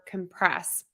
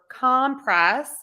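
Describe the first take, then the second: First: The stress is on the second syllable. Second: The stress is on the first syllable. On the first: It is a verb. "syllable number two for the verb compress" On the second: It is a noun. "We're stressing syllable number one for compress"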